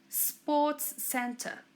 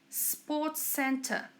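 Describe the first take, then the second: No difference in how they are said.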